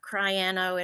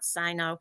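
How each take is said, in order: First: The word starts with a 'cry' sound. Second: The middle 'a' syllable is dropped. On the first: "It's not cryano" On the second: "it's not cyno"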